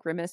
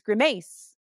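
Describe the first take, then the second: First: The stress falls in the usual place. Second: The stress falls in an odd place. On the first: The speaker calls it right. "instead of saying grimace" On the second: The speaker calls it wrong. "it puts like emphasis in weird places"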